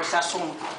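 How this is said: The word has a Spanish-style pronunciation.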